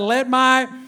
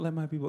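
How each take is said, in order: First: It is shouted with passion. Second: It is said quietly, without passion.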